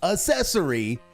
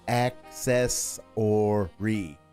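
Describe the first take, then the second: First: It begins with an s sound, no k. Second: It begins with a k sound before the s. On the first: The speaker calls it wrong. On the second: The speaker calls it right. "A C C E S S O R Y"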